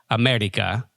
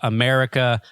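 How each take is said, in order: First: It is said with a Spanish accent. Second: It is said with an English accent.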